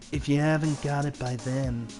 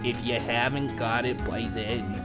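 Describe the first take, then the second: First: The voice sounds dark and goth. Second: The voice sounds droopy and sagging. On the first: "I'll just do a goth voice" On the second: "I'm trying to do a droopy voice"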